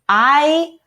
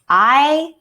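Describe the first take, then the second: First: A long vowel, as in 'eye'. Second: A long vowel, as in 'eye'.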